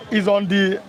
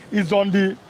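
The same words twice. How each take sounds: The two takes are said the same way.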